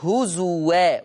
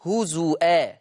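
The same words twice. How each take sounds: First: هزوا said as huzuwā with a waw, no hamza; هزوا recited with a clear w sound; Hafs reading. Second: هزوا said as huzuʾā with a hamza in place of the waw; هزوا recited with a glottal stop instead of w; Warsh reading. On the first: Teacher giving the Hafs reading with waw, careful recitation. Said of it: "يقرأ حفص لفظ هزوا بالواو". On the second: Teacher contrasting Warsh with hamza, careful recitation. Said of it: "فيقرأ بهمز الواو". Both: Shown as a demonstration.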